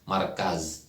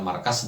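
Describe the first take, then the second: First: The word ends with a z sound. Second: The word ends with an s sound. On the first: "markaz itu menggunakan zai atau z ya" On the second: "kalau kita mengucapkan markas dengan S"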